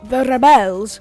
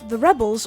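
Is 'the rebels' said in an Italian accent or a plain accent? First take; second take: Italian; plain. First: It is said with a put-on Italian accent. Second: It is said in the speaker's ordinary accent.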